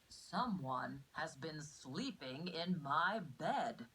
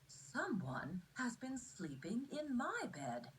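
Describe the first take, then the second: First: It is said in a big, deep voice. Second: It is said in a medium-sized voice.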